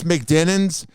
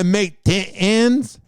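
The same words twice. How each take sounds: First: The word is said briskly at normal length. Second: The word is stretched out over many syllables.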